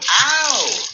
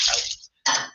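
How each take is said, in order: First: The vowel is long and emotional. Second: The vowel is short and flat.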